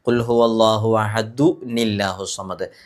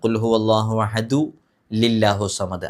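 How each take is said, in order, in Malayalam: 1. അഹദുവിന് ശേഷമുള്ള അക്ഷരം n കൊണ്ടാണ് തുടങ്ങുന്നത്. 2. അഹദുവിന് ശേഷമുള്ള അക്ഷരം l കൊണ്ടാണ് തുടങ്ങുന്നത്. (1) "അഹദു കഴിഞ്ഞിട്ട് നീ എന്നാണ് ഉച്ചരിക്കേണ്ടത്" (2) "അത് തെറ്റാണ്"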